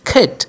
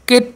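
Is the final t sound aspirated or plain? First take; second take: aspirated; plain. First: The final t sound is light and breathy. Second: The final t sound is plain and hard. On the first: The speaker calls it right. "টটাকে কিন্তু ব্রিটিশরা একটু হালকা sound ঠর মতো উচ্চারণ করে" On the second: The speaker calls it wrong. "কেট না বলে"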